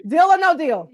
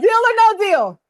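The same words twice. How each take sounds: First: Said in the usual way. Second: Deal or no deal? asked higher and louder; energetic, confident deal or no deal. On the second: Shown as a demonstration. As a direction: throw the question out boldly. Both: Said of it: "Do you see the difference?".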